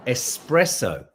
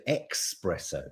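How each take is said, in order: First: ESPRESSO drawn out slowly with an S, ess-PRESS-oh; correct espresso. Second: ESPRESSO said with an X, ex-PRESS-oh; Nanny Di's mispronunciation. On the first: Shown as a demonstration. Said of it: "It's espresso". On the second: Retold or imitated. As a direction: put a K sound into espresso, "expresso". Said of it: "Nanny Di used to say".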